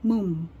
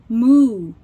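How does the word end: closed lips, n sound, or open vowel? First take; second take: closed lips; open vowel. First: The word ends with the lips closed. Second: The word ends on the vowel alone. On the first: "直接闭起来moon，那这样就念错咯" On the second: "如果只念moo，念到oo 这边，那就是牛叫声哦"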